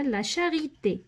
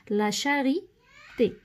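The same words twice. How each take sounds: First: Said in the usual way. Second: "لا شاريتي" slowly, with a break before the final "تي"; word drawn out. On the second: Shown as a demonstration. Teacher writing out an example for pupils, slow dictation of "لا شاريتي". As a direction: say "لا شاريتي" in pieces, at writing speed.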